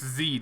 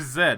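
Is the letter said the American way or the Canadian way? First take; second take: American; Canadian. First: The letter is said the American way. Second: The letter is said the Canadian way.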